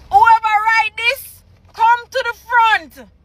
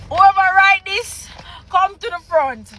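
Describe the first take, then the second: First: Higher, more forceful mock call-out; insistent mock summons. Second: Slightly raised mock call-out; mock summons. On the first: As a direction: demand the culprit step up, exasperated. Repeats the summons, escalating. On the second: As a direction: call the culprit forward, held back.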